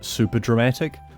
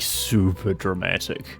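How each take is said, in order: First: It is said in a normal voice. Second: It is said in a lower voice.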